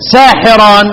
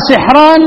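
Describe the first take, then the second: First: ساحران as saahiran; three-syllable "saa-hi-ran" for ساحران; second reading. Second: سحران as sihran; raised-pitch "sih-ran" for سحران; first reading. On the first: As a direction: say ساحران with long aa after س and i on ح. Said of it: "في كلمة". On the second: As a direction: say سحران with short i and a silent ح. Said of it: "اقرأ". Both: Shown as a demonstration.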